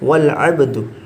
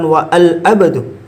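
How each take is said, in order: First: Wa and al are joined into one syllable. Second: Wa and al are said as separate syllables. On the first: The speaker calls it right. "Nah, tidak dibaca" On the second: The speaker calls it wrong. "bukan wa al abdu"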